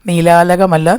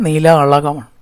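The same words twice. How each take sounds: First: നീലാലകം read with a plain dental ല as the wrong version; wrong reading shown. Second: നീലാളകം said with a retroflex ള, the right version; teacher gives നീലാളകം with a curled-tongue ള, lower in pitch; correct reading shown. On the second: Teacher corrects students' reading to നീലാളകം, retroflex ള. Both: Shown as a demonstration. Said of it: "pronunciation വ്യത്യാസമുണ്ട്".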